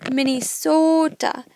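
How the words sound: It has a Minnesotan accent with long O's.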